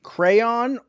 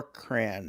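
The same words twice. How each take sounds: First: "Crayon" very slowly, as CRAY-ON; two-syllable crayon. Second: "cran" slowly, as one syllable rhyming with can; one-syllable crayon. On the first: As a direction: stretch "Crayon" into two full syllables, pitched up. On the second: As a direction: merge crayon into a single drawn-out "cran". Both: Shown as a demonstration. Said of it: "Do you say crayon or cran?".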